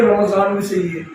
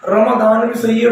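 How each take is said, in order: First: रमजान with a z sound; Urdu-style z in रमजान; Urdu variant. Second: Slow, रमदान with a d sound; Arabic-style d in रमदान; Arabic variant. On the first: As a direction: offer रमजान as the other form, z in the middle. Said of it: "रमजान Urdu में सही है". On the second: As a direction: offer रमदान unhurriedly, d in the middle. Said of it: "रमदान अरबी में सही है". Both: Shown as a demonstration.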